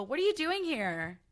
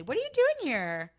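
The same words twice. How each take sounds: First: A lightly mocking, raised "What are you doing here?"; condescending quote. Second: Higher, louder, sneering "What are you doing here?"; condescending. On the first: Acquaintance surprised to see her at a party, faintly condescending. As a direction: sneer the question a little higher. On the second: Retold or imitated. Mocking a snooty acquaintance at an event, condescending. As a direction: look down on them as you ask. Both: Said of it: "Like, condescendingly".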